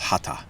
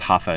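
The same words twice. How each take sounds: First: The middle consonant is a t sound. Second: The middle consonant is an English th sound. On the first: The speaker calls it right. "the th is supposed to be pronounced like a t sound" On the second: The speaker calls it wrong. "shouldn't be pronounced hatha"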